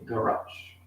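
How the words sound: It is said with an American pronunciation. "se você está nos Estados Unidos"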